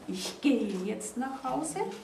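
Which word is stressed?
gehe. The stress is on "gehe".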